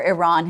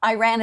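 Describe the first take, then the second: First: "Iran" said as "ih-RAHN", with the a of "father"; "Iran" with a broad "rahn" vowel; corrected Iran. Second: "Iran" said as "eye-RAN", with the a of "cat"; "Iran" with a flat Midwestern "ran"; Middle American Iran. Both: Real, not acted. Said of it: "it's my middle, you know, middle American accent".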